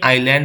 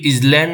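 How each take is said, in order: First: No s sound is heard in the middle. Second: An s-like sound is heard in the middle. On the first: The speaker calls it right. "आइलैंड है, यहाँ पर S silent है" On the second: The speaker calls it wrong. "ये इजलैंड नहीं है"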